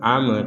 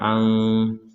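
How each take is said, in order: First: The m ends with a bouncing release. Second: The m is blurred and barely heard. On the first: "atau dibaca dengan pantulan am" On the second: "atau dibaca dengan samar am"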